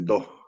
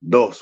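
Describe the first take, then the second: First: The final s sound is dropped or softened. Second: The final s sound is clearly pronounced. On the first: "we tend to drop that S like that" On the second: "instead of like dos"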